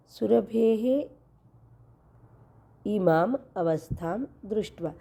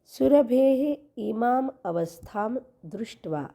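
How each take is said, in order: First: सुरभेः धीरे खींचकर, फिर रुककर इमाम अवस्थाम दृष्ट्वा; सुरभेः के बाद लंबा विराम देकर शब्द अलग करें; slow split reading. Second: Said in the usual way. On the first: Shown as a demonstration. (संधि तोड़कर धीमा पाठ) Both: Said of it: "ये संधि भी आपको समझना ज़रूरी है".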